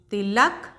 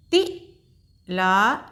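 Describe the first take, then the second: First: Said in the usual way. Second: Tilak stretched very slowly, each syllable held long; slow teacher blending; slow sounding out. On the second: Shown as a demonstration. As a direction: draw out Tilak for a learner. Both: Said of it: "एक बार फिर से दोहराते हैं".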